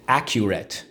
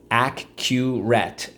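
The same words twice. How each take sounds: First: Said in the usual way. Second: Accurate drawn out slowly; teacher stretches Accurate for class, slowly; slow model. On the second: Shown as a demonstration. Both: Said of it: "repeat drill".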